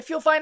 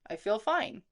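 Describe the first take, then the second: First: It sounds anxious and panicky. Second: It sounds calm and steady. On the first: The speaker is afraid of getting sick. The speaker calls it wrong. "my tone wasn't like, oh my God" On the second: The speaker is confident the body is fine. The speaker calls it right. "my tone was, ... just calmly and steadily"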